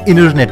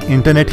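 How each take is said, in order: First: The word is said in an American accent. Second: The word is said in a British accent. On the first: "Americans इसी word को इंटरनेट बोलेंगे" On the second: "Britishers भी इसे इंटरनेट ही बोलते हैं"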